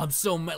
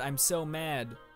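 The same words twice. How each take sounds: First: It is said with real emotion. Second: It is said flatly, without emotion.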